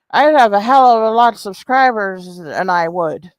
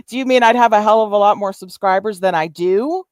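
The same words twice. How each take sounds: First: Put-on voice parroting a muddled sentence; mocking imitation of rival. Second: Said in the usual way. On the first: Streamer repeats Susan's muddled claim, mocking imitation. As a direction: mimic her garbled grammar in a mock voice. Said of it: "talking all slurring and shit".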